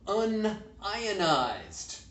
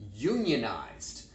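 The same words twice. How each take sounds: First: It is said as un plus ionized. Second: It is said as union plus ized. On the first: It means not ionized. "The chemist will pronounce it" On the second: It means belonging to a labor union. "the plumber will pronounce it"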